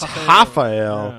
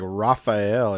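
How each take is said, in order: First: The name begins with an H-like sound. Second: The name begins with an English R sound. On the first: The speaker calls it right. "they pronounce their R's like H's" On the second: The speaker calls it wrong. "it looks like Raphael"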